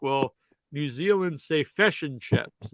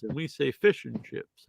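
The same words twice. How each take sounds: First: "fish" said like "fush", New Zealand style; New Zealand vowels. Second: "fish" said like "feesh", Australian style; Australian vowels. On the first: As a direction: make "fish" sound like "fush". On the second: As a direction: make "fish" sound like "feesh". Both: Retold or imitated. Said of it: "And she's like".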